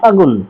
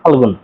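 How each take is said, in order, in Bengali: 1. g-এর আগে কোনো l ধ্বনি শোনা যায় না। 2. g-এর আগে একটি l ধ্বনি শোনা যায়। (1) "সংক্ষিপ্ত করার জন্য বললাম ফাগুন" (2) "ডিরেক্টলি ফাল্গুন"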